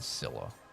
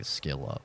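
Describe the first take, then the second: First: The name begins with an s sound. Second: The name begins with an sk sound. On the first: This is the pronunciation players always used. The speaker calls it right. "They always said Scylla" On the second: This is the pronunciation used in the game. The speaker calls it wrong. "There is no way you're supposed to say Skilla"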